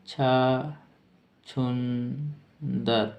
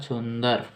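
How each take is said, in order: First: छुंदर stretched out into separated syllables; slow dictation. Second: Said in the usual way. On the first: Shown as a demonstration. Teacher dictating the meaning of mole, very slowly. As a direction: draw छुंदर out very slowly with a gap inside.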